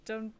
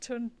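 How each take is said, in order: Both takes have the same delivery.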